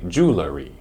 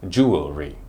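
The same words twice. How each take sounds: First: A vowel is added between L and R. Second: It has three syllables, jew-el-ry. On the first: The speaker calls it wrong. "which is wrong because there is no vowel between the L and the R sound" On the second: The speaker calls it right. "It has three syllables"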